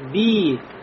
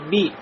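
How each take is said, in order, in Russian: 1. Гласный тянется долго. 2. Гласный краткий.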